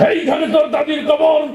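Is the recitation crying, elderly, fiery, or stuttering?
fiery. It is recited in a loud, fiery speech style. A politician used to fiery speeches is reciting. "রাজনীতির মঞ্চে সবসময় গরম বক্তব্য দিয়ে অভ্যাস"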